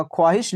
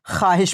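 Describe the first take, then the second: First: ख्वाहिश with the w sounded, khwaahish; read as written. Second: ख्वाहिश said khaahish, the w silent; read as spoken. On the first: Teacher shows how it is written, khwaahish with w. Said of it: "लिखी जाती है". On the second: Teacher shows how it is read, khaahish without w. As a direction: drop the waw in ख्वाहिश. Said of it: "पढ़ी जाती है". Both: Shown as a demonstration.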